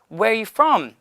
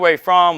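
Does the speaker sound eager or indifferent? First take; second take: eager; indifferent. First: It sounds eager, seeking approval. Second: It sounds indifferent, with the voice dipping. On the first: The speaker is trying to win the listener's approval. The speaker calls it wrong. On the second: The speaker is not seeking the listener's approval. The speaker calls it right.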